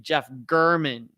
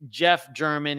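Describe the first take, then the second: First: The surname starts with a hard G sound. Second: The surname starts with a J sound. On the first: The speaker calls it right. "It's actually Jeff German. So you pronounce it G U H R M A N N" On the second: The speaker calls it wrong. "I got his name wrong, even though it looks like Jeff German"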